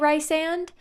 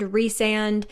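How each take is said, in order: First: The first syllable has an 'eye' vowel. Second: The first syllable has an 'ee' vowel. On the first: The speaker calls it wrong. "I used to say Rysand" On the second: The speaker calls it right. "I say Reese and Resand"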